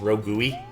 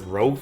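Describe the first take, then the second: First: The word ends with an added vowel sound. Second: The word ends in a hard g sound. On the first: The speaker calls it wrong. "I thought it was Rogui" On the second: The speaker calls it right. "pronounce the ro- word rogue correctly"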